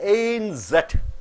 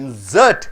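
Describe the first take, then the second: First: The stress is on the first syllable. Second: The stress is on the second syllable. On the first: A loose sheet inside a newspaper. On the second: To put something in.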